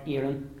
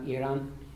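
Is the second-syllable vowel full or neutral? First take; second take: neutral; full. First: The second vowel is a neutral, reduced sound. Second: The second vowel is a full ah sound. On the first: The speaker calls it right. "You hear the neutral vowel" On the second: The speaker calls it wrong. "and not Aaron"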